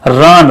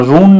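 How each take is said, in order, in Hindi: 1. स्वर एक छोटी 'uh' ध्वनि है। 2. स्वर एक लंबी 'oo' ध्वनि है। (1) "यहाँ पे यू का अ होगा" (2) "रून नहीं"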